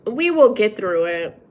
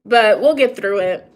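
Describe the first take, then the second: First: "will" pressed firmly; stress on will. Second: Said in the usual way. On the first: Real, not acted. Reassuring herself and viewers, stress on will.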